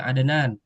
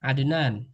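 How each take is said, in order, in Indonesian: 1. Bunyi d dilepas dengan gema ringan yang alami. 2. Bunyi d dilepas dengan gema ringan yang alami.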